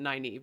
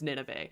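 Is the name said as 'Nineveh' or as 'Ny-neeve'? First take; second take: Ny-neeve; Nineveh. First: The name is said the standard way, like 'Ny-neeve'. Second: The name is said like the word 'Nineveh'. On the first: This is the intended pronunciation of the name. The speaker calls it right. "it probably wasn't Nynaeve" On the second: This is how one reader pronounced the name. The speaker calls it wrong. "Mine was Nineveh"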